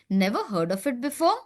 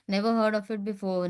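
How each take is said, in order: First: It is read with lively, varied pitch. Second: It is read in a flat, even voice. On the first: The speaker calls it right. "that modulation in your voice" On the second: The speaker calls it wrong. "If you just say"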